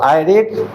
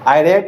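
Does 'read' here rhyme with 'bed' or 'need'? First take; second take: need; bed. First: The vowel in read is a long ee. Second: The vowel in read is a short e. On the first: It is the present tense. "ये है first form of verb" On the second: It is the past tense. "इसको I रेड पढ़ेंगे क्योंकि second form of verb में रेड पढ़ते हैं"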